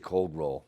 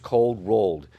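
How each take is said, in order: First: The final d sound is dropped. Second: The final d sound is clearly heard. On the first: This is the casual shop-talk name. "I don't pronounce that. I'll say cold roll" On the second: This is the proper technical name. "the proper call out for this material is it's cold rolled"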